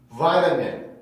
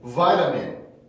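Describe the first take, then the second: First: The t is a quick soft flap. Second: The same.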